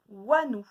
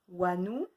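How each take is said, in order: First: Louder "Wanou" as a riddle; called-out syllable. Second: Said in the usual way. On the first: Shown as a demonstration. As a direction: call out "Wanou" to the class. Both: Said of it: "de deviner lesquels c'est".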